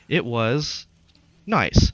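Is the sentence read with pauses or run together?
pauses. The words are read with pauses at punctuation. The speaker calls it right. "that's not how you would read that sentence"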